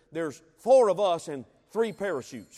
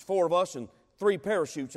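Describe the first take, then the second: First: Four hit hard and louder; the word four punched in a grim warning; stress on four. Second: Three stressed as the short count of parachutes. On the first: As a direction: lean on four, the count of men. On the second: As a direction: weigh the word three against four. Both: Retold or imitated. Pilot repeats grim news.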